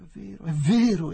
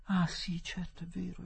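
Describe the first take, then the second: First: High, loud, relieved exclamation; raised, relieved cry of agreement; great relief. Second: Hushed, high, whispery realisation; very soft, higher-pitched recognition; dawning relief. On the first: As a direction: burst out with relief. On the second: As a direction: let relief dawn almost under the breath. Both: A narrator's reading. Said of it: "esclamò Adela con grande sollievo".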